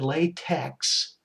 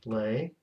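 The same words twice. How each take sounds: First: The word ends with a 'ks' sound. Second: The word ends with a 'k' sound. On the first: It names the glove material. The speaker calls it wrong. "if we said latex, that's like latex gloves" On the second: It names the typesetting language. The speaker calls it right. "why do we say tech? Pronounced LaTeX"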